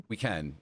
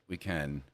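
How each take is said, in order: The two takes are said the same way.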